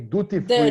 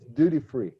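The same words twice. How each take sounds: First: Duty is pronounced the Brazilian Portuguese way. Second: Duty is pronounced the English way. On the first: "in Brazil we say duty free" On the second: "But in English it's duty free"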